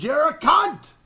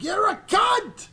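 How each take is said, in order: First: High, loud yelled insult; retold shouted insult. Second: "cunt" yelled high, slow and stretched; much higher, drawn-out shout on "cunt"; emphasized insult. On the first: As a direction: hurl the insult. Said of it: "He goes". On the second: Retold or imitated. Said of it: "he really emphasized".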